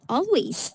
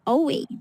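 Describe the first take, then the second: First: The final s sound is clearly pronounced. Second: The final s sound is dropped. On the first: The speaker calls it right. "practice saying S all the time. So you have to pronounce it each words" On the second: The speaker calls it wrong. "not sound like always"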